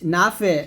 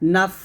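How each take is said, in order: First: The final letter ends with a bouncing echo. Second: The final letter ends with a breathy release. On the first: The speaker calls it wrong. "কলকলা করা যাবে না। আলিমাত, নাফে এরকম হবে না।" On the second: The speaker calls it right. "হামস মানে বাতাস বের হবে"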